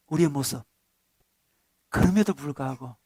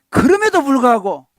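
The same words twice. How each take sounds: First: 그럼에도 불구하고 said low and soft; tender, low-voiced restatement; hushed. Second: 그럼에도 불구하고 punched loud and high, falling at the end; proclaimed with force; emphatic. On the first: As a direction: drop the voice to a near hush on 그럼에도. Same phrase, now hushed. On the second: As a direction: hit 그럼에도 hard, then let it fall. Preacher repeats key phrase. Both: Shown as a demonstration.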